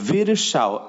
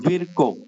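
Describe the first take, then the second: First: The name is pronounced like Virsao. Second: The name is pronounced like Virko. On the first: This is the form given in the book's second chapter. The speaker calls it wrong. "আরেকটা হচ্ছে ভিরসাও" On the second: This is the form to remember. The speaker calls it right. "সঠিক উচ্চারণ হচ্ছে ভিরকো"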